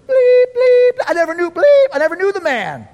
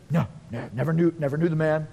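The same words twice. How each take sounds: First: High, loud frantic outburst with shouted bleeps; losing his mind. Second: Low, quick, hushed brush-off; casual denial. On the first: Peter cursing as he denies Jesus, frantic rage. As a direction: explode into censored-cursing denial. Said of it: "And then he loses his mind". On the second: Peter denying Jesus to a little girl, evasive denial. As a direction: deny it hurriedly under your voice. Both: Acted.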